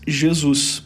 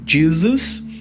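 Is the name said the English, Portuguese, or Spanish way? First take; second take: Portuguese; English. First: The name is said with Portuguese pronunciation. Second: The name is said with English pronunciation. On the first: "em português" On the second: "pronunciado em inglês"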